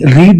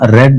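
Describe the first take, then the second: First: The word is said with a long 'ee' vowel. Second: The word is said with a short 'e' vowel. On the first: It sounds like the present tense. The speaker calls it wrong. "మనం పొరపాటుగా దీన్ని రీడ్ అని చదివేస్తాం" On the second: It marks the past tense. The speaker calls it right. "Past tense వాక్యం కాబట్టి మనం రెడ్ అని చదవాలి"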